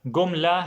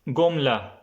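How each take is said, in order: The two takes are said the same way.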